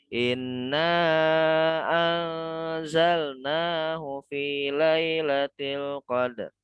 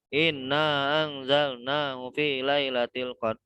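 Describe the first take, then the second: First: It is recited slowly and calmly. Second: It is recited quickly and hurriedly. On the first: The speaker calls it right. "Jadi nggak buru-buru" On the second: The speaker calls it wrong. "itu kan buru-buru namanya"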